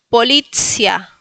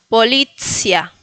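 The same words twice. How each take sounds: Both takes have the same delivery.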